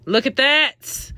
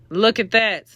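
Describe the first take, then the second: First: Slow, high "look at that"; marvelling. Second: Said in the usual way. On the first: Shown as a demonstration. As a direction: draw it out in admiration. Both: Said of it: "so y'all could see".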